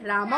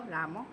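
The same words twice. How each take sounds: First: The name is called fairly loudly. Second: The name is called softly.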